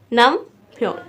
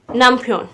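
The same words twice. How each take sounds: First: नमफ्योन split nam, pause, pyon; teacher separating the two halves of नमफ्योन; syllable by syllable. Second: Said in the usual way. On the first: Shown as a demonstration. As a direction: clear gap inside नमफ्योन. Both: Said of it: "तीन तीन syllable बने हैं".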